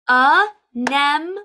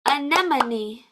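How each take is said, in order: First: Each syllable is said separately, clapped out. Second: The syllables run together as one word.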